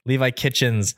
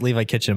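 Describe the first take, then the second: First: The surname ends with an added s sound. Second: The surname ends without an added s sound. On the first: The speaker calls it wrong. "saying that, plural" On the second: The speaker calls it right. "I know it's Levi Kitchen"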